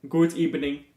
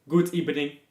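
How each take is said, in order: Both takes have the same delivery.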